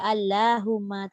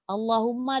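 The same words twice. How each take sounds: First: The L sound is light and thin. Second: The L sound is heavy and thick. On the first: The speaker calls it wrong. "dia tak baca Allahumma" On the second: The speaker calls it right. "Kecuali pada kalimah Allah"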